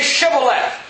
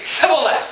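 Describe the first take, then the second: First: The word begins with a 'sh' sound. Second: The word begins with an 's' sound. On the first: The speaker calls it right. "say Shibboleth" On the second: The speaker calls it wrong. "For he could not frame to pronounce it right"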